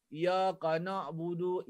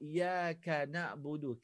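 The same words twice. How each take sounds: First: Iyaka na'budu slow with thick ka; wrong iyaka. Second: Iyaka na'budu slow, softer thin ka; correct iyaka. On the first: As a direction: drag iyaka na'budu heavily. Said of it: "Jangan baca iyaka". (iyaka na'budu salah) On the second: (iyaka na'budu betul) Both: Shown as a demonstration.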